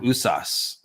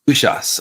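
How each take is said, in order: First: The middle consonant is a plain s sound. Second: The middle consonant is an sh sound. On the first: The speaker calls it wrong. "I think it's called Usas" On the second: The speaker calls it right. "Pronunciation right. Ushas. it's got an H in there"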